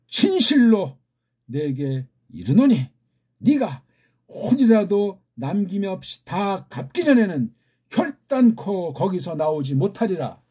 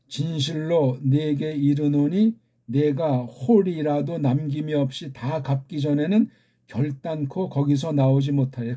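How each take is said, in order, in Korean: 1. 감정을 담아 표현을 살려 강조하며 읽는다. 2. 감정 없이 평평하게 읽는다. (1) "아무리 잘 읽어주려고 해도" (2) "그냥 평범하게 읽어보겠습니다. 감정 없이"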